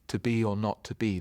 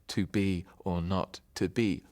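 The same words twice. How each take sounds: First: It is said in a natural speaking rhythm. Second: It is said in a strict, beat-by-beat rhythm. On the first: The speaker calls it right. "when you come to speak it, the meaning becomes clearer" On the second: The speaker calls it wrong. "in speaking, you don't say to be or not to be"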